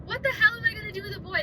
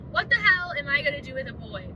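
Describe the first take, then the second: First: Panicked disbelief. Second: Said in the usual way. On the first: Retold or imitated. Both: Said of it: "That was my first question".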